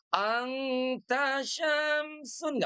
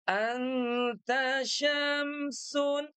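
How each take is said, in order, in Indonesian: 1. Bunyi n tersamar dengan sengau. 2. Bunyi n diucapkan biasa, tanpa sengau. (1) "nggak usah pakai ikhfa" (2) "Biasa saja"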